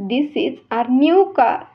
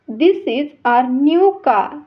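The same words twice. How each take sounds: No difference in how they are said.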